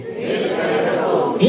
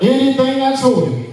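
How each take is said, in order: First: Said in the usual way. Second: Call and response lead. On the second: Acted. Preacher leads, congregation repeats.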